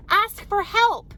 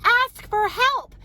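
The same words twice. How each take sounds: First: Slow, higher "ask for help." leaning hard on help; slow each word of "ask for help." down for weight; emphatic advice. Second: "Ask for help." much higher and louder, very slow, punching Ask; louder insistence. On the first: Mom urging overwhelmed mothers, slow emphatic stress. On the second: Mom repeating advice to mothers, higher and louder. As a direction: push "Ask for help." up high and loud like a plea. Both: Real, not acted. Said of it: "If you're overwhelmed".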